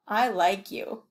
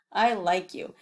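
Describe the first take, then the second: No difference in how they are said.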